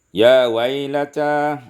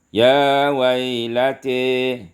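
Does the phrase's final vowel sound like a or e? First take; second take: a; e. First: The final vowel is an open a sound. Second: The final vowel leans toward an e sound.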